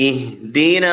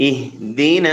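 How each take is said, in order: The two takes are said the same way.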